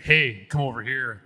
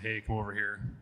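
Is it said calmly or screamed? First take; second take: screamed; calmly. First: It is screamed very loudly. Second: It is said at a calm, normal volume.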